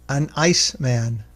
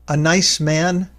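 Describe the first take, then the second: First: A glottal stop separates an from ice. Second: The n runs smoothly into the next word.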